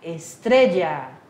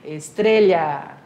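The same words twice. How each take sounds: First: Estrella said "es-TRE-dja", slow and low. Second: Estrela said the Spanish way as "es-TRE-lha", slow and low. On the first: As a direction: make the LL in Estrella a "dj" sound. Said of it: "Ou, como a Suzana fala". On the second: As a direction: make it "estrelya", with a Portuguese LH. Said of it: "como a Suzana fala". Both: Shown as a demonstration.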